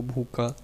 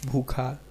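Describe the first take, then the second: First: भूखा said "bhooka", with plain k; no breath after the k in भूखा; deaspirated Braj form. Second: Said in the usual way. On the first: Shown as a demonstration. Lecturer illustrating Braj speech, भूखा deaspirated to "bhooka". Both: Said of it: "अल्प प्रयोग कर देने की प्रवृत्ति".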